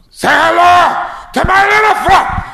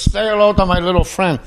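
First: High, loud, slow yelled Scarface line; full-throttle Scarface shout; wild Scarface impression. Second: Priest quoting Scarface. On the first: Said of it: "I went crazy with this impression". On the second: Retold or imitated. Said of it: "He goes".

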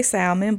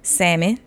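First: Salmon with an audible L, SAL-mun; L pronounced in salmon. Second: Salmon said SAM-in, no L; silent L in salmon. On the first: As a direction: sound the L in "salmon". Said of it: "Y'all really wanna say salmon". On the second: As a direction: drop the L in "salmon". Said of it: "I stopped saying it with an L". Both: Shown as a demonstration.

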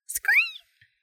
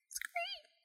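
First: Very high, piercing little squeak; happy high-pitched bat cry; cheerful bat screech. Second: Tiny, high, whispered squeak; barely audible little bat cry; soft bat screech. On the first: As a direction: call out a bright bat "screet". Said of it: "Dean called cheerfully". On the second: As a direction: squeak very faintly and gently. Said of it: "he said softly". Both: A narrator's reading.

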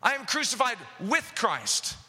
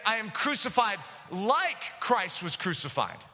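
First: "with" given the main weight of the line; stress on with. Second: "like" drawn out and leaned on, slow; slow, with weight on "like" in "crucified like Christ"; stress on like. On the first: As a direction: press hard on "with" to show union with Christ. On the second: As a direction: hit the word "like" so it sounds like a comparison. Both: Shown as a demonstration. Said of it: "Paul is saying something very specifically here".

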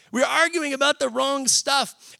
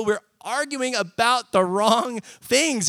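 First: Higher, slow, leaning hard on "arguing"; emphatic restatement. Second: Said in the usual way. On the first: Shown as a demonstration. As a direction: repeat the point, pushing "arguing" up high.

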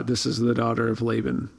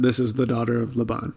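First: "Laban" with the stress early, on LAY; Laban as LAY-ben. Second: "Laban" with the stress late, on BAHN. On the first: Giving both versions of the name, Laban as LAY-ben. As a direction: end on "Laban" said LAY-bin. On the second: Giving both versions of the name, Laban as luh-BAHN. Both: Shown as a demonstration. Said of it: "are we going with Laban or Laban?".

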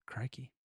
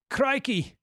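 First: Put-on much softer, lower try at a Scottish accent; attempted Scottish accent. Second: Put-on high exclamation in a botched Scottish accent; attempted Scottish accent. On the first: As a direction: quietly test out a Scottish accent. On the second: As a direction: try Scottish, land nearer Australian. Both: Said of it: "I was trying to go for the Scot-, Scottish accent".

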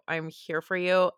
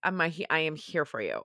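First: Said in the usual way. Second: Sincere reassurance. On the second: Real, not acted. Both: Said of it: "I'm so sorry if this is triggering".

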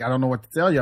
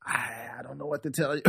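First: Said in the usual way. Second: Very soft, hesitant retold answer; hushed helpless reply. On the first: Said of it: "I was like". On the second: Storyteller quotes himself answering her rant, hushed and helpless. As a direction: say it small and under the breath. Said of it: "And I'm like".

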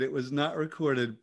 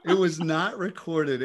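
First: Said in the usual way. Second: Slow, laughing through the words; real amused laugh; laughing denial. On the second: Real, not acted. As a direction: chuckle it out.

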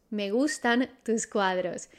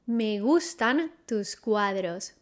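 First: Said in the usual way. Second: Slowed down for the learner, each word laid out; slow model phrase. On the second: Shown as a demonstration. Teacher models the sentence slowly for students. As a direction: say it slowly so students can copy. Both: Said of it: "How do you say that?".

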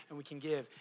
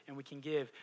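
The two takes are said the same way.

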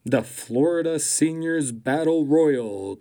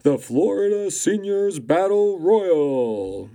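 First: Announcer voice. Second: Loud, slow boxing announcer call; drawn-out big ring intro. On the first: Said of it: "Let me try that again". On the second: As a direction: boom it out like a fight night ring announcer. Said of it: "Try it again". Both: Shown as a demonstration.

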